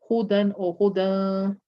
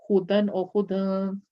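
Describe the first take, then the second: No difference in how they are said.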